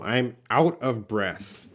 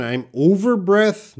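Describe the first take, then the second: First: Said in the usual way. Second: Student's wrong phrase. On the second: Shown as a demonstration. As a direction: read out the wrong "I'm over breath" higher and louder, as a quoted error. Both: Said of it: "No, no".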